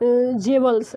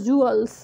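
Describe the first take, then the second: First: The word begins with a 'jev' sound. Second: The word begins with a 'joo' sound. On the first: The speaker calls it wrong. "ना कि जेवल्स, ऐसे नहीं बोलेंगे" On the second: The speaker calls it right. "इसको pronounce करेंगे जूअल्स"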